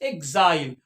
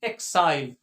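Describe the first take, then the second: First: The x is sounded as gz. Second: The x is sounded as ks. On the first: "एग्जाइल, और या फिर एक्साइल, both are correct" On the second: "both are correct"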